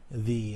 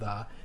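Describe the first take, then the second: First: The vowel sounds like 'ee'. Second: The vowel sounds like 'uh'. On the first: The next word begins with a vowel. "when you have a vowel and, and you say it differently" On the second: The next word begins with a consonant. "instead of the"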